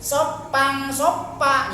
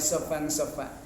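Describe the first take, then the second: First: The lips close fully, making a stopped sound. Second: Air is blown out softly between lips and teeth. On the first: The speaker calls it wrong. "Ya ini nempel bibirnya, jangan ditempelin ya" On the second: The speaker calls it right. "Keluarkan anginnya, hembuskan"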